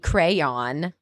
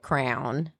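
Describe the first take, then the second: First: The word is said with two syllables. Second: The word is said with one syllable. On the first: "I know it's supposed to be crayon" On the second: "I most of the time will say like a crown"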